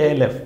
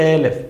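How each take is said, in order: Both takes have the same delivery.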